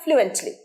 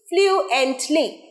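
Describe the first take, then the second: First: The syllables run together without breaks. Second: The syllables are split apart with breaks. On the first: "একসাথে কি হবে?" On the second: "আমি ভেঙে বলছি"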